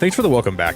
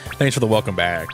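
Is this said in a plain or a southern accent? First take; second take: plain; southern. First: It is said in the speaker's plain accent. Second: It is said in a strong southern accent.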